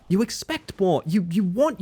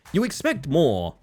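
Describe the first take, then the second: First: Higher, sharper restatement; pitched-up indignant repeat; higher insistent. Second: Slow, weighted complaint; drawn-out disappointed point; slow emphatic. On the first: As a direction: press the point up in pitch. Repeats the complaint for emphasis. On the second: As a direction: lean on each word, slowly. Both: Real, not acted.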